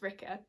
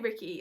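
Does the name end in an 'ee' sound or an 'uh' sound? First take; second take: uh; ee. First: The name ends with an 'uh' sound. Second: The name ends with an 'ee' sound. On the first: The speaker calls it right. "I know it's technically pronounced Ricka" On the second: The speaker calls it wrong. "I always say Ricky"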